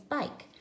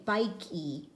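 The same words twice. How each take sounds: First: Said in the usual way. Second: "bike E" with the final E said aloud as a separate "ee"; wrong way, E sounded. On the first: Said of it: "We just say bike". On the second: Shown as a demonstration. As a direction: say "bike E", voicing the silent E as "ee". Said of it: "We don't say bike E".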